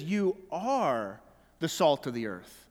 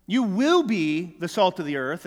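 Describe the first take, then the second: First: "are" stressed, the phrase falling low and settled; preacher correcting to the present, firm stress on are. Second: "will" leaned on with a rising tune, like a promise for later; preacher showing the wrong reading as a future promise, stressing will. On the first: Land on "are" and drop to the end. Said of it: "No, he says". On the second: Hit "will" and let it rise. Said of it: "as though it's some future promise". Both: Shown as a demonstration.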